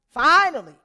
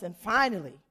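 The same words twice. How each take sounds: First: "finally" shouted, higher and louder; loud emphatic finally. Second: Said in the usual way. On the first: Real, not acted. Telling the church of the long wait, loud relief.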